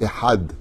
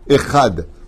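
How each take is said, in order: First: The middle consonant is a breathy throat h. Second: The middle consonant is a scraped kh sound. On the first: The speaker calls it right. "On dit echad. C'est un het" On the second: The speaker calls it wrong. "On ne dit pas echad"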